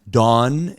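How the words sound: It is said in a general American accent.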